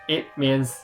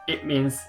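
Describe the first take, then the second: The two takes are said the same way.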